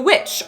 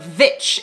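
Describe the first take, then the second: First: The word begins with a w sound. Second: The word begins with a v sound.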